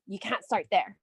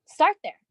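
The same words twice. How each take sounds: First: Lightly voiced naysayer saying You can't start there; doubting family. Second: Louder, higher Start there with the word start hit hard; emphatic counter. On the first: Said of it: "your friends and family are like". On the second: Shown as a demonstration. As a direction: answer back firmly with Start there, start stressed.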